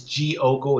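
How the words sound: It has Portuguese pronunciation, the D sounding like j. "It's Diogo in Portuguese"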